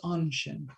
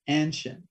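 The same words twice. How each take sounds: First: The first vowel is pronounced as a soft A. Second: The first vowel is pronounced as a hard A. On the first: This is the proper way. The speaker calls it right. "but really it's a soft A" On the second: This is the common American way. The speaker calls it wrong. "it's really typically American to pronounce that first A hard"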